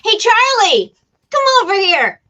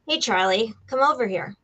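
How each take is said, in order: First: The line is said with lively, acted energy. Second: The line is said in a plain, everyday way. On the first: It is performed fully for a voiceover audition. "if I was auditioning for that line for a voiceover" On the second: It is an ordinary reading of the line. "that's a line"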